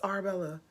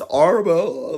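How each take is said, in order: First: The name is said in a plain everyday way. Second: The name is said with an affected foreign accent. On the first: "okay, if it's Arabella" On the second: "her husband pronounces it like that because maybe of his accent"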